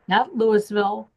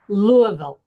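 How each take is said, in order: First: The name is said an outsider's way. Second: The name is said the local way. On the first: The speaker calls it wrong. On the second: The speaker calls it right. "I'm saying it right"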